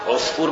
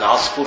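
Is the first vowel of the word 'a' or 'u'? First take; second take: u; a. First: The first vowel is an 'u' sound. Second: The first vowel is an 'a' sound. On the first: This is the more common form. "بضم العين هو الأشهر" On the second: This is the form used in Egypt. "تفتح العين عصفور صح"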